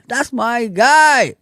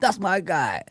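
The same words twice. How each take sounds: First: Slow and loud, stretching guy; drawn-out praise. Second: Said in the usual way. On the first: Real, not acted. Praising a chat viewer, slow and loud. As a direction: savour each word like a shout-out.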